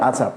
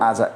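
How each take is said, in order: Both takes have the same delivery.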